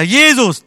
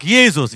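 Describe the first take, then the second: First: Jesus called out high and loud as a prompt. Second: Said in the usual way. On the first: Retold or imitated. Preacher prompting the boy, calling Jesus loudly. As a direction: belt out Jesus for him to copy. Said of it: "Sagt er". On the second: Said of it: "Der sagt".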